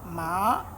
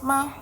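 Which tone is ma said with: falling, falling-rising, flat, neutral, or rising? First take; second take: rising; neutral. First: The pitch rises from middle to high. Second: The syllable is short and light, without tone. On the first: "we have the rising tone" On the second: "Then the neutral is just ma"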